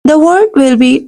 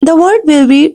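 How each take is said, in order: Both takes have the same delivery.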